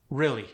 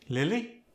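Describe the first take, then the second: First: Said in the usual way. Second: "Lily" for really, R turned to L; Khmer-style "Lily", L replacing R; R softened to L. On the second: Shown as a demonstration. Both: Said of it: "The R was softened into an L".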